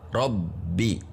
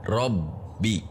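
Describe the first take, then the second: The two takes are said the same way.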